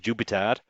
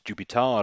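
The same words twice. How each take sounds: First: It is said in a northern English accent. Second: It is said in a southern English accent.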